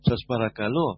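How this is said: It is said softly, with warmth and sweetness. It is a loving, sincere request. The speaker calls it right. "με αγάπη, με γλυκύτητα"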